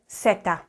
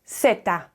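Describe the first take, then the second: First: It is said with a Latin American pronunciation. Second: It is said with a Latin American pronunciation.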